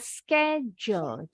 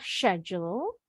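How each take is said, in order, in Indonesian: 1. Diucapkan dengan pelafalan Amerika. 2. Diucapkan dengan pelafalan Inggris. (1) "orang Amerika bilangnya schedule" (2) "Kalau orang Inggris bilangnya schedule"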